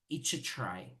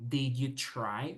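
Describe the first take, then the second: First: 'Did you' is blended into one short syllable. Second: Both words of 'did you' are fully pronounced. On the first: "we say each try" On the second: "instead of saying did you try"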